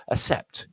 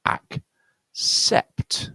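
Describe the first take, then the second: First: "accept" said with only an S, no K; single S sound. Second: "Accept" split into slow syllables, k ending the first, s starting the second; K plus S. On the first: Teacher showing the confusing word, "accept" with plain S only. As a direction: say "accept" as uh-sept, dropping the k. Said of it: "double S just sounds like a single S". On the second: Teacher showing both sounds, "Accept" split between k and s. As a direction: break "Accept" in two, ak, then sept. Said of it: "one is k and one is s". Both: Shown as a demonstration.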